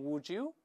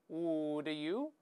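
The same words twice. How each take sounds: First: The two words blend into a j sound. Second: The two words are said separately.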